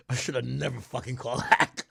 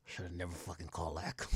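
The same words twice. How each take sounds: First: [name] line through laughter; laughing [name] impression. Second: Low, soft regretful [name]; lightly voiced muttering [name]; imitating [name]. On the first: Streamer imitating [name], laughing as he says it. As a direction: chuckle through the regret. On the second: Streamer imitating [name] regretting the call, low and soft. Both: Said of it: "You know what [name] said?".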